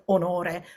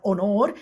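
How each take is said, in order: First: "onore" with stress on NO and a final unstressed E; full Italian word. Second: "onor" ending on the stressed syllable, final E dropped; cut-short Italian word. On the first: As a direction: say all three syllables of "onore", stressing the middle. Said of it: "onore is a piano word". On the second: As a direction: say "onor" with nothing after the stressed OR. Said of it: "but onor is a tronco". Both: Shown as a demonstration.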